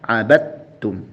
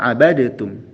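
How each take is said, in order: First: The d goes straight into t, no vowel. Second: A vowel is sounded between d and t. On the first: The speaker calls it right. "Abadtum langsung ke huruf ta ya" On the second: The speaker calls it wrong. "jangan sampai kita baca abadatum"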